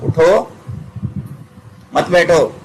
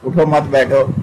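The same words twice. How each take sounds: First: There is a pause after the first word. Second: It is said without a clear pause.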